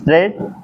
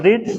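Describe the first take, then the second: First: The word is said with a short 'e' vowel. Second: The word is said with a long 'ee' vowel. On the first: This is the past form of the verb. "सी रेड एट of night" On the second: This is the present form of the verb. "तीनों first form, second form, third form एक ही होता है, बस उसका pronunciation क्या होता है? अलग अलग होता है।"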